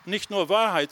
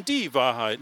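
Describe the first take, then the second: First: "Wahrheit" set up for contrast, pitched high; raised pitch, with "Wahrheit" given as the lesser option; stress on "Wahrheit". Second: "die" singled out as the one and only; stress on "die". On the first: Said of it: "sondern die Wahrheit". (Betonung auf "Wahrheit") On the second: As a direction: lean hard on "die", then let "Wahrheit" fall. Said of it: "nämlich eine ganz besondere Wahrheit". (Betonung auf "die") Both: Shown as a demonstration.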